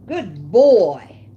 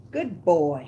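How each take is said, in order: First: Loud praise. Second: Said in the usual way. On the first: Real, not acted. Praising dog after he eats.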